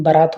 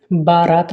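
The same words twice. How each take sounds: First: बारात said ba-raat; correct short vowel. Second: बारात said baa-raat; wrong long vowel. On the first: Teacher corrects students, short first vowel. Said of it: "होता है". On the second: Teacher shows students the mistake, long first vowel. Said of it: "नहीं". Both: Shown as a demonstration.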